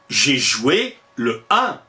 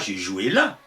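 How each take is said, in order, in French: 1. L'article est prononcé en entier devant 'un'. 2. L'article est élidé et lié à 'un'. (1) "on dit" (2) "On ne dit pas"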